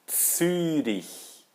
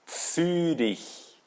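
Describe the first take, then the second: The two takes are said the same way.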